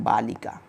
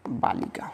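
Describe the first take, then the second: First: Said in the usual way. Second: बालिका whispered, no voice at all; teacher whispers the answer बालिका. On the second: Shown as a demonstration. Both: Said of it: "क्या हो जाता है?".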